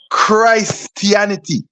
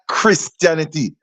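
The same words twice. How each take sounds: First: The first syllable sounds like 'Christ'. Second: The first syllable sounds like 'Chris'. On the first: The speaker calls it right. "It's Christianity, ... that word is the root of Christ" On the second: The speaker calls it wrong. "not Christianity"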